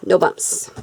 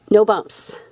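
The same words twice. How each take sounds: First: Soft unvoiced whisper of no bumps. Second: Said in the usual way. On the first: Shown as a demonstration. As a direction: whisper it to yourself.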